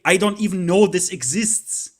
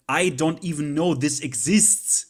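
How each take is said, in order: First: "know" hit louder, rising; emphatic repeat. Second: Said in the usual way. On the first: Shown as a demonstration. Telling viewers he knows nothing, stressing "know". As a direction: lean hard on "know" this time.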